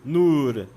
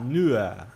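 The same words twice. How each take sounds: First: The final R is pronounced strongly. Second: The final R is soft, almost a vowel. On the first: The speaker calls it wrong. "você não diz nur" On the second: The speaker calls it right. "o R ali é meio que um A, bem suave"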